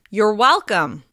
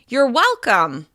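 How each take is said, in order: First: The pitch peaks moderately high on well. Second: The pitch peaks very high on well. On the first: The thanks is acknowledged in a friendly way. "Be sure to use friendly, sincere intonation" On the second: The speaker sounds even more upbeat and sincere. "To sound even more upbeat and sincere, you can hit a higher pitch on well"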